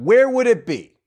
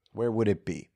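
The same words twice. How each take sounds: First: Bright announcer-style ask; excited question. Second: Where would it be? said low and much softer, to himself; quietly pondering it; musing repeat. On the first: Shown as a demonstration. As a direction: throw the question out with a big lift. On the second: Real, not acted. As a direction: mull the question over under your breath.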